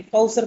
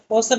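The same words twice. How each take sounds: First: कौसर said as "kausar" with an au glide; कौसर with an open "au", the right way; correct vowel. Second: कौसर said as "kosar" with a plain o; कौसर with a short "o", the wrong way; wrong vowel. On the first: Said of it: "कौसर पढ़ेंगे". (कौसर को "कौसर", औ की आवाज़ के साथ, सही उच्चारण) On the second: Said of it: "कौसर नहीं पढ़ेंगे". (कौसर को "कोसर" की तरह, ग़लत उच्चारण) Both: Shown as a demonstration.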